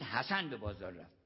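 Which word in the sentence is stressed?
حسن. The stress falls on حسن. Someone else did not go. "یعنی حسین نرفت"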